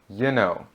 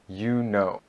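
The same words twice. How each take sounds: First: The words are run together in a casual form. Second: Both words are said fully and carefully. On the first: "more casual and more often used" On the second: "the more proper"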